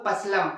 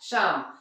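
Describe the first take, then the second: First: A P sound is pronounced at the start. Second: The word starts without a P sound. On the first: The speaker calls it wrong. "वो पसलम था क्या, नहीं" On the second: The speaker calls it right. "वहां पी silent था"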